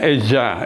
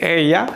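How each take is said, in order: First: The middle consonant sounds like a J. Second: The middle consonant sounds like a Y. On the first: "ada juga yang J gitu ya" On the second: "ada yang mengucapkan Y, kayak Y"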